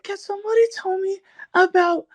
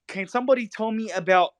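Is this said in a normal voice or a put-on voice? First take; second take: put-on; normal. First: It is said in an exaggerated put-on character voice. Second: It is said in the speaker's ordinary voice.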